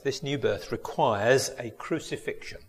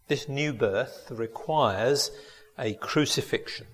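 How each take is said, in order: First: Said in the usual way. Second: Slow, pause before "a crucifixion"; slow and weighty. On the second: Shown as a demonstration. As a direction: let "requires" hang, then land "a crucifixion".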